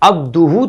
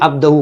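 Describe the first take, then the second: First: The vowel after 'abd' is 'u'. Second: The vowel after 'abd' is 'a'. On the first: The speaker calls it right. "सीखा" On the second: The speaker calls it wrong. "ये अब्दहु पढ़ रहा है"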